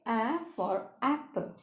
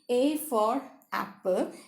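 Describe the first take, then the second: First: The A is said as its short vowel sound. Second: The A is said as the letter name. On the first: The speaker calls it right. "you say" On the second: The speaker calls it wrong. "Rather than saying"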